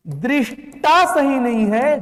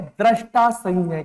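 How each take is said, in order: First: दृष्टा slow, with an i sound, drish-ta; emphatic slow drish in दृष्टा; wrong pronunciation. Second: दृष्टा said as द्रष्टा, with an a vowel; lower, falling drash-ta for दृष्टा; correct pronunciation. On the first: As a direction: stretch दृष्टा as दृष्-टा. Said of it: "दृष्टा सही है।". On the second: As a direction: say drash, not drish, in दृष्टा. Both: Shown as a demonstration.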